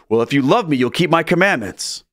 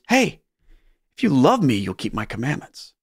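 First: It sounds like a reproachful guilt trip. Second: It sounds like a warm, loving invitation.

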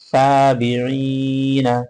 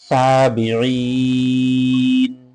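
First: The word ends with a short vowel after n. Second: The word ends on n with no vowel. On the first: The word is read letter by letter without stopping. "উচ্চারণের সময় আমরা বানান করে পড়বো" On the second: The reader stops on this word. "যখন আমরা এখানে থামবো তখন অবশ্যই সাকিন"

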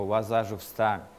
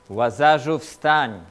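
First: It is said calmly at a quiet level. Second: It is shouted loudly and forcefully. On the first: "nie mówił spokojnie do niego" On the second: "ale krzyknął do niego"

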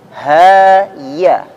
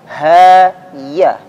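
The two takes are said the same way.

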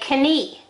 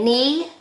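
First: The k at the start is pronounced. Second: The k at the start is silent. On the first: The speaker calls it wrong. "you don't say knee" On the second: The speaker calls it right. "You say knee"

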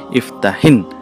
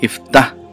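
First: The word ends with an added linking 'i' vowel. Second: The word ends on a bare consonant, no vowel. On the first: "So why it is hin?" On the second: "It's actually iftah"

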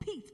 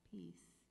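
First: The word is said quickly and forcefully. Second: The word is said slowly and gently. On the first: The speaker calls it wrong. "don't go" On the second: The speaker calls it right. "even saying it slowly"

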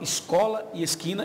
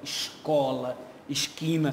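First: It is said with a common Brazilian accent. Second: It is said with a carioca accent.

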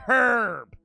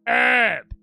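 First: It is said in a British accent. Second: It is said in an American accent. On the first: The speaker calls it right. "when it's clearly herb" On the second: The speaker calls it wrong. "Those bloody Americans think it's called fucking herb"

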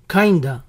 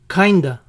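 First: The two words blend into one reduced word. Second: The two words blend into one reduced word.

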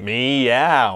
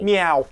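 First: The meow is said in a suggestive way. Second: The meow is said in a plain way. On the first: The speaker calls it wrong. "that sounds inappropriate if you say it that way" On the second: The speaker calls it right.

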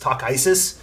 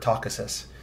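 First: The ending is said like the word Isis. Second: The ending is said like asis. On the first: This is how the audiobook said it. "I feel like they leaned heavily into the Isis" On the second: This is the pronunciation familiar from childhood. "I've always preferred Takasis"

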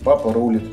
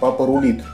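First: The stress falls on the first syllable of rulit. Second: The stress falls on the second syllable of rulit. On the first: "я привык говорить" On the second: "ставить ударение на второй слог"

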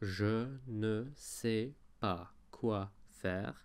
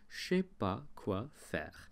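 First: The negative ne is clearly pronounced. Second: The negative ne is left out. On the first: "instead of saying" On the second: "they say"

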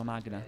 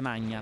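First: The 'gn' is a separate g and n. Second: The 'gn' sounds like 'ny', Italian style. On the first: "in inglese la pronunciano Magna" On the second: "dovrebbe essere Magna"

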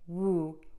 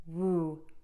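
First: The vowel after W is long and tightly rounded. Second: The same.

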